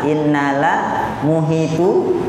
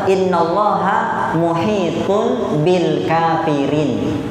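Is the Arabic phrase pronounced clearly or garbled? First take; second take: garbled; clear. First: The phrase is garbled, with sounds dropped and altered. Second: The phrase is pronounced clearly with every sound intact. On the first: Foreign pilgrims recited it without understanding it. The speaker calls it wrong. "bacaannya aneh" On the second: This is the phrase that was actually meant. The speaker calls it right. "ternyata yang dimaksud mereka adalah"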